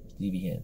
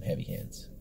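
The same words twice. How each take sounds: First: Put-on half-hearted French accent, said softly. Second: Said in the usual way. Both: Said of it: "That was my best French accent".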